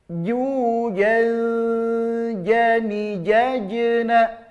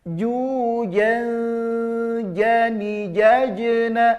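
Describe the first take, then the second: The two takes are said the same way.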